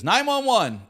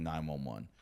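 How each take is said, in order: First: High, loud mock drunken yell; retold yell. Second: Said in the usual way. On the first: Comic imitating an audience member interrupting his show, mock yell. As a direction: imitate a woman yelling out from the crowd. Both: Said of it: "She's just drunk yelling".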